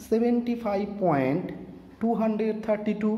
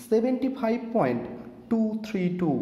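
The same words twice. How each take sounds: First: After the point read টু হান্ড্রেড থার্টি টু as one whole number; decimal as hundreds. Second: After the point say টু থ্রি টু, one digit at a time; digit by digit decimal. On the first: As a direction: demo the reading with টু হান্ড্রেড থার্টি টু. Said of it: "এখানে বলি". (দশমিকের পরে টু হান্ড্রেড থার্টি টু পুরো সংখ্যা হিসেবে) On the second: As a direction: demo reading টু, থ্রি, টু separately. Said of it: "আরেকবার বলি". (দশমিকের পরে টু থ্রি টু আলাদা আলাদা অঙ্কে) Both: Shown as a demonstration.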